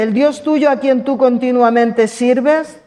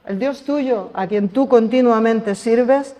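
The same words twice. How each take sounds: First: Slow, with "tuyo" lifted and leaned on; stress on tuyo. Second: Slow, level, weight on "tú"; stress on tú. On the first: The king calls to Daniel, pressing on "tuyo". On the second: Preacher repeats the king's words, pressing "tú". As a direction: put the weight on "tú". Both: Shown as a demonstration. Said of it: "daos cuenta cuántos detalles le da".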